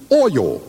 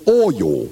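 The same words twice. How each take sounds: First: "Oil" said as one syllable; plain "Oil". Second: "Oil." stretched into two syllables, anchorman style; Cronkite's oil. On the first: Shown as a demonstration. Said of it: "the way he says the word oil". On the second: Retold or imitated. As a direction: say "Oil" like "oy-yull". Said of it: "He says".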